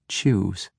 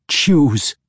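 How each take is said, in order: First: Cold command. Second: Loud, higher sharp demand. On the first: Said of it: "Ivanel instructed". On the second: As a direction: bark the order at him. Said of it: "Ivanel demanded". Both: Acted.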